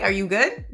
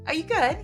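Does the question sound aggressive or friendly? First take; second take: aggressive; friendly. First: It sounds confrontational and hostile. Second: It sounds warm and casual. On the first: The asker is challenging you to a fight. "they want to do it in an aggressive way" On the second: The asker is greeting you and checking on you. "That's how they say hi"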